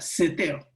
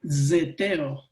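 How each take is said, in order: First: The word begins with a hissing s sound. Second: The word begins with a buzzing z sound. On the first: "la gente no lo pronuncia así, lo pronuncia seteo" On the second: "La Z se pronuncia así como Z"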